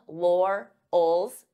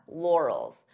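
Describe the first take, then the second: First: The word is broken into two separate parts. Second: The word is said as one smooth unit. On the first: "So divide the sounds until you're comfortable with each sound" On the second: "And then you can pronounce it as one"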